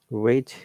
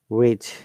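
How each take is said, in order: No difference in how they are said.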